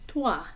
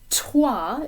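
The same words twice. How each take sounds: First: The t is soft and subdued. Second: The t is popped out with a puff. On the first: The speaker calls it right. "it should be toi" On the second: The speaker calls it wrong. "instead of saying toi"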